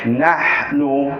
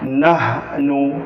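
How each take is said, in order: First: The h sound is a strong, throaty breath. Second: The h sound is a light, plain breath. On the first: The speaker calls it right. "Ha, jadi nahnu" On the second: The speaker calls it wrong. "Dengar yang salah, jangan ikut. Nahnu, salah"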